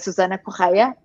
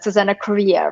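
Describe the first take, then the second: First: The surname is said without the heavy R. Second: The surname is said with a heavy extra R. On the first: The speaker calls it right. "when actually in Portuguese you say" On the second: The speaker calls it wrong. "everyone adds that extra R as you did"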